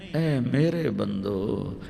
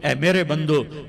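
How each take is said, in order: First: It is said in a tender, loving tone. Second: It is said in a plain, flat tone.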